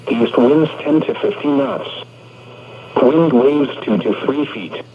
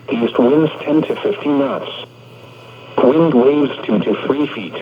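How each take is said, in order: Both takes have the same delivery.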